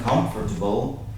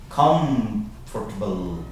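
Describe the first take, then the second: First: It is said quickly with sounds dropped and blended. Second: It is said slowly with every sound clear.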